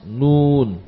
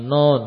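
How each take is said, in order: First: The vowel sounds like u. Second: The vowel sounds like o. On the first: The speaker calls it right. "tapi nun" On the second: The speaker calls it wrong. "Bukan non"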